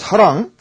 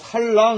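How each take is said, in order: First: The first syllable ends with no l sound. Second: An l sound is added after the first syllable. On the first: The speaker calls it right. "사랑이면 사랑인데" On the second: The speaker calls it wrong. "발음을 잘못해갖고 살랑 이렇게 해버리면"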